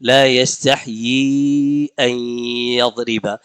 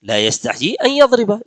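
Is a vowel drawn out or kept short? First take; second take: drawn out; short. First: A vowel is stretched out noticeably longer. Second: The vowels are kept short without stretching. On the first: The speaker calls it right. "वहां आकर थोड़ा सा खींचा" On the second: The speaker calls it wrong. "इतना ही तो। लेकिन हुजूर ने ऐसे नहीं पढ़ा"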